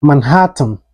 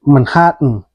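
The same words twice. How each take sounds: First: MANHATTAN with an audible T before the last syllable; T fully pronounced. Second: MANHATTAN with the T held in the throat before N; swallowed T. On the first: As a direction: say "Manhattan" releasing the T clearly. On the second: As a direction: say "Manhattan" American style, like "Manha'n". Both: Shown as a demonstration. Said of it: "it's pronounced like".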